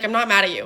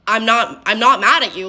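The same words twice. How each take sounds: First: Said in the usual way. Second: Retold denial, firmer and more emphatic on "mad"; insistent denial. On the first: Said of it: "then I'd be like". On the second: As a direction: insist on "not mad", punching "mad" with mild exasperation. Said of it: "I'm like".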